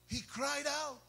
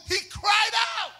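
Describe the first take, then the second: First: Much softer, subdued echo; hushed repeat. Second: High, raised preacher's cry. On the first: Real, not acted. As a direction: drop the volume right down for effect. Quiet repeat after the cry. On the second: Acted. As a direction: call it out high, rising to the climax. Acts out the cry, then repeats.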